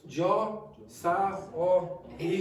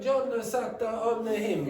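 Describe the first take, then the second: First: Final consonants are dropped from every word. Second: Final consonants are kept, with extra vowels added. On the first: The speaker calls it wrong. "if you go Jo sa o he" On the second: The speaker calls it right. "you exaggerated in the Italian accent"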